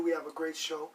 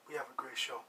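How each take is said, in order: First: Said in the usual way. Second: Low, soft and weighty; quietly underlined promise; hushed sincere emphasis. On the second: Shown as a demonstration. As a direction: drop the voice low and soft to mean it. Tonight's claim set against usual.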